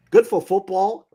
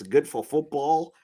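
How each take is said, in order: First: Good for football with Good high and loud; louder, higher restatement of good for football; loud emphatic repeat. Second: Said in the usual way. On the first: Shown as a demonstration. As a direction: belt out Good for football as a slogan.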